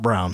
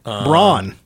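First: The name is said like the color brown. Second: The name is said unlike the color brown. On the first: "Not brown" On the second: "Because it's spelled B-R-A-U-N"

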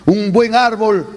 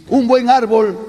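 Both takes have the same delivery.

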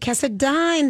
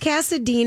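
First: The final syllable 'dine' is stressed. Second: The final syllable is not stressed. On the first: "he does it Cassadine, darling. I'm dining" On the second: "is how it's spelled"

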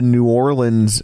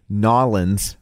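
First: The name is said fully, as New Orleans. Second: The name is clipped together, like Nawlins. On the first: The speaker calls it wrong. "excuse me" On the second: The speaker calls it right. "I don't sound like an idiot when I say it that way"

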